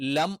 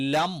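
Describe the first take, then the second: The two takes are said the same way.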